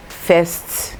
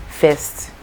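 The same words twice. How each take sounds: The two takes are said the same way.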